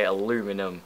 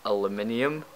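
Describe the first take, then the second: First: "aluminum" without the second i; "aluminum", the American four-syllable way; American pronunciation. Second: "aluminium" with the i sounded before -um; "aluminium", the British five-syllable way; British pronunciation. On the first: Retold or imitated. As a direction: say "aluminum" as a-LOO-mi-num. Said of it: "hate it when people say aluminum". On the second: Shown as a demonstration. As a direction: say "aluminium" as al-uh-MIN-ee-um. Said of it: "there is an I in the word".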